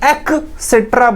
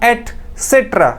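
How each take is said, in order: First: The word begins with an 'ek' sound. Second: The word begins with an 'et' sound. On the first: The speaker calls it wrong. "कुछ लोग एक्सेट्रा बोलते हैं, which is incorrect" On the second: The speaker calls it right. "This is एटसेट्रा"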